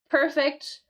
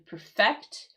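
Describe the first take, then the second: First: The stress is on the first syllable. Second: The stress is on the second syllable. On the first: It is an adjective meaning without fault. "the accent on the first syllable in the adjective" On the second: It is a verb meaning to make something perfect. "We have the accent here on the second syllable"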